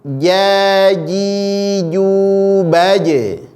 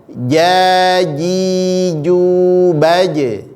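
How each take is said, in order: No difference in how they are said.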